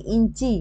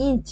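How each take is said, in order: First: ইঞ্চি ending in a clear "i"; vowel added at end. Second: Said in the usual way. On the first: Shown as a demonstration. Teacher showing a vowel at word end, ইঞ্চি with final "i". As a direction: say ইঞ্চি as "in-chi". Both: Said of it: "শব্দের শেষে স্বরধ্বনি কিভাবে এসছে".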